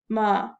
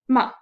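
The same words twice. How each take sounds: First: The pitch is low, flat and deep. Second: The pitch falls sharply from high to low. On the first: "use your deep voice, do it down, down, down in your throat" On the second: "the fourth tone, which goes straight down"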